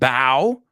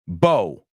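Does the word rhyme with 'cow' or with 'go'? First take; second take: cow; go. First: The vowel sounds like the one in 'cow'. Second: The vowel sounds like the one in 'go'. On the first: It means to bend forward in respect. "I'm going to say the first word again" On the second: It means an arc, as in a rainbow. "I'm going to say the second word again"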